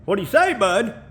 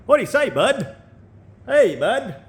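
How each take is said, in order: First: Put-on high bouncy Canadian accent; playful Canadian greeting; mock Canadian accent. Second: Put-on high, swooping Canadian accent; hammed-up Canadian buddy greeting; mock Canadian accent. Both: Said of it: "I can't sound Canadian".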